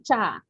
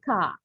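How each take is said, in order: First: The syllable begins with a ch sound. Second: The syllable begins with a k sound. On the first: The speaker calls it wrong. "Do not say cha" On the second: The speaker calls it right. "we say ka"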